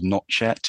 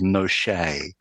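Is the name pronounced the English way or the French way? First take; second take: English; French. First: The name is pronounced the English way. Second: The name is pronounced the French way. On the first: "it's not called Notchet" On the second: "That's the French pronunciation, which basically is the correct pronunciation"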